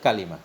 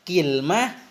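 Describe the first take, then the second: First: First vowel a, with i after the l. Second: First vowel i, no vowel after the l. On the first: "dengan fathah kaf, dan dengan kasrah lam ... lebih fasih" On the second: "kasrahnya kaf bersama sukun lam"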